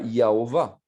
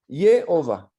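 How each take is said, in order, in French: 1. La première voyelle se prononce comme 'a'. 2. La première voyelle se prononce comme 'e'. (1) "ce n'est pas Yahovah" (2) "un A avec un accent, ça veut dire E"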